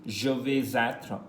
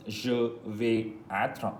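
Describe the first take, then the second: First: Slow example. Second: Even slower, stretched example; slow, drawn-out repeat. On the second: Teacher repeating an example more slowly. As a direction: spell it out in time for learners. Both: Shown as a demonstration. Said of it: "For example".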